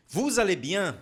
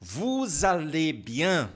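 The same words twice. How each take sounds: First: Said in the usual way. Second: "Vous allez bien" drawn out for learners; slow demonstration. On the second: Shown as a demonstration. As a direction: say "Vous allez bien" slowly, each word clear. Teacher repeats phrase slowly.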